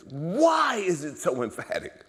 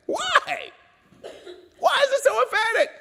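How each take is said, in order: First: High, drawn-out plea for an answer; urgent questioning. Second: Very high, loud shouted question; crying out. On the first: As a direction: retell puzzling aloud, stretching the question slowly. Quotes his own urgent questioning. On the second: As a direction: demand an answer at the top of the voice. Quoted question escalates into a cry. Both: Retold or imitated.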